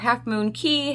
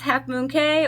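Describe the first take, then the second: First: The last word is said like 'key'. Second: The last word is said like 'kay'. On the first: "I'm pretty sure the correct way is Half Moon Key" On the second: "however you like to pronounce it"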